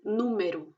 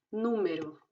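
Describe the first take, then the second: First: "número" ending in u; final O as U. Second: Said in the usual way. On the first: Shown as a demonstration. Teacher gives correct Portuguese "número". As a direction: say "número" ending noo-meh-roo. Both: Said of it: "y se dice U".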